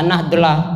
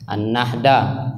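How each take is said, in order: First: The name is sounded out from its spelling. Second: The name is said with Indonesian-style sounds. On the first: "jangan dibaca An-Nahdlah, ya, jangan sampai kalian lihat tulisannya dibaca" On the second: "karena lidah Indonesia dipakai"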